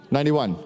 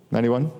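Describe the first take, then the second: First: Ninety-one stated with a falling tune; confident falling answer; settled answer. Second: Ninety-one asked with a rising tune; unsure question. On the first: Settles on the year. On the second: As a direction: ask "Ninety-one?" as a doubtful question going up at the end. Unsure, asking himself the year. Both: Real, not acted.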